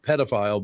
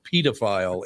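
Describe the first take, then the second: First: It is said with an American accent. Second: It is said with a British accent. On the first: "they pronounce it not pedophile" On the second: "but pedophile in England"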